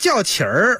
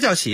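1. 这个词结尾带卷舌的'er'音。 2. 这个词结尾平实，没有卷舌音。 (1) "那叫叫起儿。" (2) "什么叫叫起啊？"

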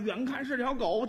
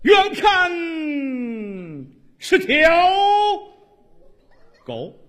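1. 这句是用平常说话的语气说的。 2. 这句是用洪亮的舞台朗诵腔念的。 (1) "大家听腻了，你说相声啊" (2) "你按话剧朗诵说这段死狗多好啊"

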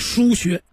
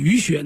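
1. 第一个音节读 shu。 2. 第一个音节读 yu。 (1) "其实叫疏穴" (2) "有人偏念鱼穴"

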